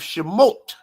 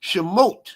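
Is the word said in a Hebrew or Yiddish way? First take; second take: Hebrew; Hebrew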